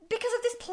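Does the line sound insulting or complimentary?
complimentary. It sounds complimentary, with the insult removed.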